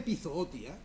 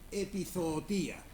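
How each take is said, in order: First: The stress falls on the second O. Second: The stress falls on the final I. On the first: The speaker calls it right. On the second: The speaker calls it wrong.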